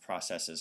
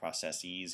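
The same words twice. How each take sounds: First: The last syllable sounds like 'siz'. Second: The last syllable sounds like 'seez'. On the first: The speaker calls it right. "It's processes" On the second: The speaker calls it wrong. "not processes, even though you hear people say that, they're wrong"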